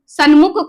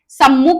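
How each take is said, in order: First: The consonant before mukh is an n sound. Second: The consonant before mukh is an m sound. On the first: The speaker calls it wrong. "सन्मुख कुछ नहीं होता है" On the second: The speaker calls it right. "सम्मुख होता है"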